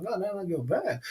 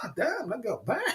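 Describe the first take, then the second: First: Said in the usual way. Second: Awed whisper. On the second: Retold or imitated. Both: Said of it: "I was like".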